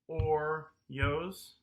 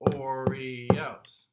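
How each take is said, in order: First: The word is squeezed into two syllables. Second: The word is spoken with three syllables. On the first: The speaker calls it wrong. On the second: The speaker calls it right.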